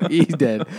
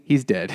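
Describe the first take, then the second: First: Laughing. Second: Said in the usual way. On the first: Real, not acted.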